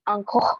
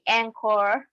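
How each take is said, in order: First: The name is said with a French accent. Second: The name is said with an English-speaking accent. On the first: French speakers say it this way. "the French people call me"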